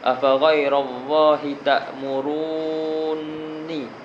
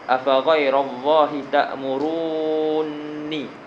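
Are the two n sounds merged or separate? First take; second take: merged; merged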